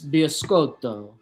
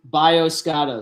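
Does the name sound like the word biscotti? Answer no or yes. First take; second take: yes; no. First: The name sounds like the word biscotti. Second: The name does not sound like biscotti. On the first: The speaker calls it wrong. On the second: The speaker calls it right.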